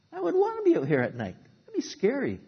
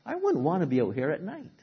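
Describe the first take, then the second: First: Much higher, nervous whisper-thin worry; imagine being out there at night, frightened; scared high voice. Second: Said in the usual way. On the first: Retold or imitated. Preacher voicing his own fear on a stormy night, scared and high. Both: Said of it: "And I thought".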